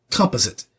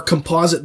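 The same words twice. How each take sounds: First: "composite" as "COM-puh-zit"; British pronunciation. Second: Said in the usual way. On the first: Retold or imitated. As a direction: put the stress on the first syllable of "composite". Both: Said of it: "composite bow becomes a composite".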